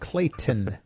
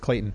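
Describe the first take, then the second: First: Each sound is articulated with exaggerated care. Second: The name is said quickly and relaxed. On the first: "I say that like with way too much enunciation" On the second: "Normally it's just like"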